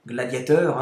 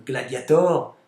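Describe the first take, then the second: First: Gladiator pronounced French, ending -teur; French-style title. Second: Gladiator with final -tor, open o; Latin-style title. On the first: Title repeated in French form. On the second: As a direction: say Gladiator ending in "-or". Title said two ways. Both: Real, not acted.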